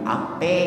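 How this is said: The final vowel is an 'e' sound. "Pakai native language Betawi"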